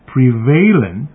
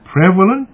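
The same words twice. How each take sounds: First: The start sounds like the word prevail. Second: The start does not sound like prevail. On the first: The speaker calls it wrong. "not prevalent and prevalence, as we often hear on the analogy of the pronunciation of prevail" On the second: The speaker calls it right. "We say prevalent"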